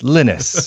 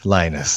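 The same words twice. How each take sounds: First: The name is said with a Norwegian pronunciation. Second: The name is said with an English pronunciation. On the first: This is how it is said in the name's home country. "it's pronounced Linus over there" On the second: This is how it is said locally. "not Linus like it is over here"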